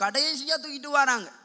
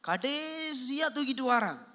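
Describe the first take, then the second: First: Said in the usual way. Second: கடைசியா stretched long and slow; drawn-out emphasis. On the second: Shown as a demonstration. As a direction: draw out the first word, கடைசியா, for weight. Preacher repeats the line for emphasis. (கடைசியா-வை நீட்டி அழுத்தி)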